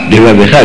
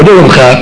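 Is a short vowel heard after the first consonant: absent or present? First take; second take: present; absent. First: A short vowel follows the first consonant. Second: The first consonant has no vowel after it. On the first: The speaker calls it right. "בכל דבריך, דבריך" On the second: The speaker calls it wrong. "לא דברך, גם זה טעות"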